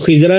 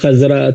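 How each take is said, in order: First: The first vowel is a short 'i'. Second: The first vowel is an open 'a'. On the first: The speaker calls it wrong. "वो खिज़रा नहीं होता है" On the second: The speaker calls it right. "पहले पर ज़बर"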